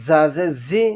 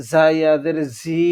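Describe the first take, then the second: First: Said in the usual way. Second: Last জি as a long "zee"; one-alif stretch. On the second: Shown as a demonstration. Teacher reading examples to learners, final জি stretched. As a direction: hold the vowel of the final জি. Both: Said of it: "এক আলিফ টানিয়ে পড়বো".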